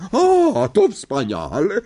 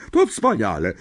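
First: High, loud, gleeful exclamation; delighted. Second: Said in the usual way. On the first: A narrator's reading. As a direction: gloat with delight. (radosny, wysoki okrzyk) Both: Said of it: "ucieszyła się ciotka Merch".

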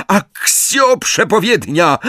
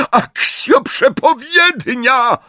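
First: High, slow incantation shout; high-pitched summoning call; shouted spell. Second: Very high, drawn-out shriek; slow, shrieked summoning cry; screamed spell. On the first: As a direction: cry out the spell desperately. Villain desperately casts summoning spell. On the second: Spell repeated more desperately. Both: A narrator's reading.

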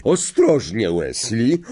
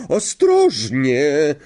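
First: Calling out. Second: High, long-stretched warning cry; drawn-out call. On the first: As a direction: call out a warning to a pupil. (wołanie ostrzegawcze) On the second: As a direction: call it out slowly, stretching the word. (przeciągłe wołanie) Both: A narrator's reading. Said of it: "zawołała profesor Sprout".

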